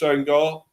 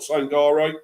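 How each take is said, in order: First: The name ends without a final vowel. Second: The name ends with a pronounced final vowel. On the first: The speaker calls it right. "That's how you pronounce it" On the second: The speaker calls it wrong. "It's not Sangare"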